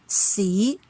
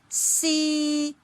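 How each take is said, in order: First: The pitch rises from middle to high. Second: The pitch stays level at the top. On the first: "it rises from the mid-level to the highest" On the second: "the starting and ending point lie on the highest level"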